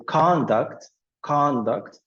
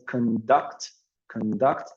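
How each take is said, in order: First: "conduct" stressed on the first syllable, CON-duct, full open vowel in "con"; noun stress. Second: "conduct" stressed on the second syllable, con-DUCT, reduced vowel in "con"; verb stress. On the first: Teacher showing the noun form, "conduct" stressed as CON-duct. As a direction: hit CON in "conduct" and let "duct" drop. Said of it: "it's a noun". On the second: Teacher showing the verb form, "conduct" stressed as con-DUCT. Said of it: "it will be a verb". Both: Shown as a demonstration.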